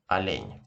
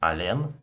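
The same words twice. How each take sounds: First: "олень" ending in a soft palatal нь; soft final n. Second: "Олен" with a hard final н. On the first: Teacher gives "олень" correctly with the soft sign. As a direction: soften the last н of "олень". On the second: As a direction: end "Олен" on a plain, hard н. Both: Shown as a demonstration. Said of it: "hear this difference again".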